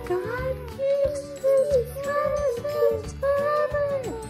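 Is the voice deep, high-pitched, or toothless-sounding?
high-pitched. It is said in a very high-pitched voice.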